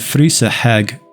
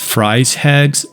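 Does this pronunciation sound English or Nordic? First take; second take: Nordic; English. First: The name is pronounced in a Nordic-sounding way. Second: The name is pronounced in a standard English way. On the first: "which to me sounded more Nordic or authentic" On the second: "which is probably a standard English way to say it"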